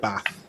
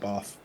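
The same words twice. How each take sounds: First: It is said in the local Bath accent. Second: It is said in a southern English accent. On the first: This is how locals say it. The speaker calls it right. "in Bath they call it Bath" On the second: This is how southerners say it. The speaker calls it wrong. "Bath is a southerner way of saying it"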